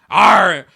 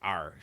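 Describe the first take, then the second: First: It is said forcefully, with conviction. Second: It is said weakly, without conviction.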